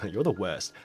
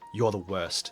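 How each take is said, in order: First: It is said in a playful, affectionate tone. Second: It is said in an annoyed, complaining tone. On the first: The remark is a fond tease. "in a good way" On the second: The remark is a real complaint. "that's the tone she's probably complaining in"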